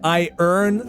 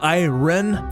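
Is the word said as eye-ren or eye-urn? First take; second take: eye-urn; eye-ren. First: The r sound comes before the final vowel. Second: The r sound comes after the first vowel. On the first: The speaker calls it right. "Notice how I said I earn this time" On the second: The speaker calls it wrong. "instead of I ren"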